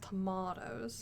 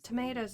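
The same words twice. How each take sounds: First: It is said with a British accent. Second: It is said with an American accent.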